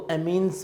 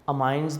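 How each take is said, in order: First: The second syllable has an 'ee' vowel. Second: The second syllable has an 'eye' vowel. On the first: "इनको अमीन्स भी पढ़ा जाता है, मतलब different accent में" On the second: "अमाइंस भी पढ़ा जाता है"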